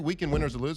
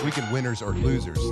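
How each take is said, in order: First: It is said fast and mumbled. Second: It is said slowly and clearly.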